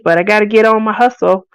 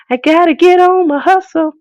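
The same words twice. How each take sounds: First: Said in the usual way. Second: Higher, punchier repeat of the motto; hype-woman chant; hyped self-pep voice. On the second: Shown as a demonstration. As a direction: pump yourself up on it.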